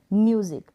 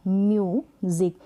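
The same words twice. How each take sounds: First: Said in the usual way. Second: म्यूजिक split as म्यू, then ज़िक; syllable by syllable. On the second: Shown as a demonstration. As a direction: hold a long "myoo" in म्यूजिक, then "zik" apart. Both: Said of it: "इसको break किया".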